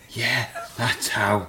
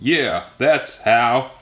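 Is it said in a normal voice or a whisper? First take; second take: whisper; normal voice. First: It is said in a whisper. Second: It is said in a normal voice.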